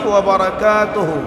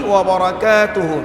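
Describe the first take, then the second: The two takes are said the same way.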